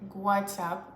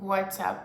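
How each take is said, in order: First: A slight g sound comes before the w. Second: It starts with a plain w sound.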